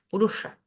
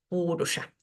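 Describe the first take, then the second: First: The stress is on the second syllable. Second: The stress is on the first syllable. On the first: The speaker calls it wrong. "En la anterior tampoco, lo acabo de hacer eh, con un error" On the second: The speaker calls it right. "lo correcto sería decir"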